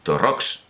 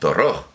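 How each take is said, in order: First: The name ends in a 'ks' sound. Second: The name ends in a harsh throat sound. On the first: This is how the local people say it. "dicen Torrox" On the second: This is the reading given in the pronunciation manual. "los torrojeños no dicen Torroj"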